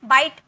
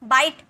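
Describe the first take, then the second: The two takes are said the same way.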